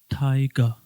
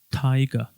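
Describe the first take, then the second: No difference in how they are said.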